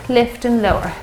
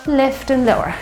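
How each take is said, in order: Both takes have the same delivery.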